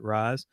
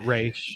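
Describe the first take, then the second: First: The name ends with a 'z' sound. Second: The name ends with an 'sh' sound. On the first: "some people po- pronounce it Raz" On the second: "some people po- pronounce it Raish"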